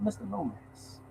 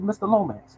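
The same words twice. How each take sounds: First: Dracula voice. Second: Said in the usual way. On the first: Retold or imitated. Vice president greeting the mailman, in a hushed Dracula voice. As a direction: lean in and purr it like a count. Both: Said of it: "He talked like Dracula".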